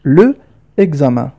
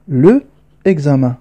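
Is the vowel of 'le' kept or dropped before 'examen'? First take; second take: kept; kept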